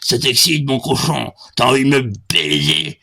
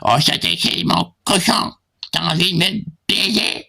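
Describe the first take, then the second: First: It is said in the speaker's normal voice. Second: It is said in a put-on feminine voice.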